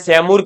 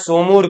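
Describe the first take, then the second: First: The first syllable has an 'ai' vowel. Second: The first syllable has an 'o' vowel. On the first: "किसी ने सैमूर करे पढ़ा है" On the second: "किसी ने सोमूर करे पढ़ा है"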